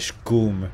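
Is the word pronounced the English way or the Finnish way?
Finnish. The word is said with a Finnish pronunciation. "in Finnish you say scum"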